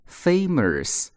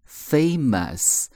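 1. 第一个元音带有额外的卷舌音。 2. 第一个元音是普通的，没有r音。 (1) "以下读法都是错的" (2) "这几个地方呢都不卷舌头，所以它正确的一个读法就是"

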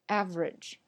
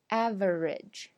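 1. 中间的音节被省掉了，只剩下两个。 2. 这个词要完整地说出三个音节。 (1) "我们说"average"。那中间那个"v" 那个音节就没了" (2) "我们不说"

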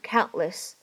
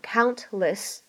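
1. 中间的 t 是憋住的，不爆破。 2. 中间的 t 是完全爆破。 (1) "存在一个非常明显和清晰的不完全爆破，所以呢……直接读成countless" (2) "你没有必要读成countless"

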